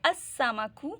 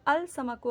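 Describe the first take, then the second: First: The l merges into a doubled s. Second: The l is clearly pronounced before s. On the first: The speaker calls it right. "इसको पुश कर दिया, double time कर दिया हमने" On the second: The speaker calls it wrong. "अल समकु अगर हम पढ़ेंगे तो वो गलत होगा"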